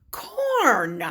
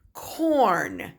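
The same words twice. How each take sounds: First: Said in the usual way. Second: Corn whispered with no voice. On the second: Shown as a demonstration. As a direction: breathe the word Corn.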